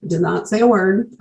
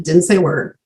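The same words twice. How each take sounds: First: "did not" said in full, pitched up; emphatic stress on NOT. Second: Said in the usual way. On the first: Real, not acted. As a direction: lean on "did not", each word separate. Restating her silence with emphasis.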